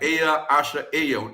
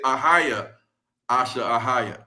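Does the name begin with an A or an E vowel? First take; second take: E; A. First: The name begins with an E vowel. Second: The name begins with an A vowel. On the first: "with the E" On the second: "with an A"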